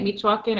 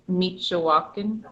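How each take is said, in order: First: It is said without the extra middle syllable. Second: It is said with an extra middle syllable. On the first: The speaker calls it wrong. "is it how I'm saying it" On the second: The speaker calls it right. "is there an extra syllable like"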